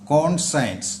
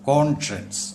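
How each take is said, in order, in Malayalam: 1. മധ്യഭാഗം 'sigh' പോലെ s ഉപയോഗിച്ചാണ് പറയുന്നത്. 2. മധ്യഭാഗം 'shuh' പോലെ sh ഉപയോഗിച്ചാണ് പറയുന്നത്. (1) "ഇത് കോൺസയൻസ് അല്ല" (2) "പിന്നെയോ കോൺഷ്യൻസ് എന്നാണ്"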